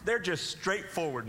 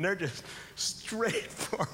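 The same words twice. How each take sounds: First: Said in the usual way. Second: "Straight for" drawn out slowly, word by word; deadpan, spelled-out "Straight for"; slow emphasis. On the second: Shown as a demonstration. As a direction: stretch "Straight for" to drive it home.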